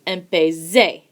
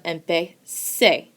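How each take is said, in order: First: The consonant before the final vowel is a z. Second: The consonant before the final vowel is an s. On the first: The speaker calls it wrong. "you hear a hard Z, not a S" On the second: The speaker calls it right. "Does empecé sound like empezar? Yes"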